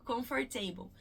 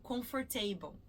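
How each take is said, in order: The two takes are said the same way.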